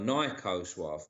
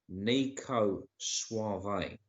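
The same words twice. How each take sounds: First: Suave ends without a final 'ay' sound. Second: Suave ends with a final 'ay' sound. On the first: The speaker calls it wrong. "you're looking at it like [name]" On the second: The speaker calls it right. "No, it's Nico Suave. Don't forget the E at the end is a A"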